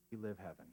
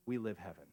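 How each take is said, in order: First: Softer, quieter repeat of "We live heaven"; softer echo. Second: Said in the usual way. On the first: Shown as a demonstration. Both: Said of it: "repeats the line softer".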